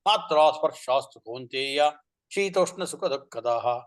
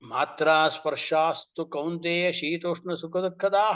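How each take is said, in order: First: It is read with a plain statement intonation. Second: It is read with a questioning intonation. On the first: Sense contacts alone give pleasure and pain. The speaker calls it wrong. "मात् एवं न करणीयं पठनं ... it will become a statement" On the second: Do sense contacts alone really give pleasure and pain? The speaker calls it right. "काकुस्वरः"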